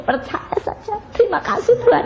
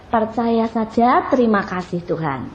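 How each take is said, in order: First: Whispered then high, breaking into tears; tearful prayer. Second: Said in the usual way. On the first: Acted. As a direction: pray through tears, whisper then cry out. (doa sambil menangis, berbisik lalu tinggi)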